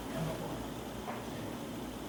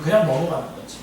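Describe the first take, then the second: First: Very quiet, slow, almost voiceless repeat; under his breath. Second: Said in the usual way. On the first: Real, not acted. Preacher admitting to congregation he lets things pass, under his breath. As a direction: let it fade into a near-whisper.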